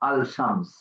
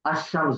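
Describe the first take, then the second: First: The 'l' is pronounced clearly before 'shams'. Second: The 'l' is dropped and merges into 'sh'. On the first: The speaker calls it wrong. "বলতে পারবো না আল শামস" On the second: The speaker calls it right. "আল আসবে না, লাম"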